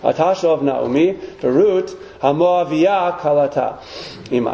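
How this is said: The word haMoaviyah is said with strong emphasis.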